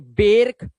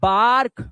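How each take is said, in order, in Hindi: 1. r से पहले का स्वर 'ah' नहीं है। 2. r से पहले का स्वर खुला 'ah' है। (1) "इसे बेर्क या बैर्क या बॉर्क मत पढ़ना" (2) "ए की आवाज आ, तो ये हो गया बार्क"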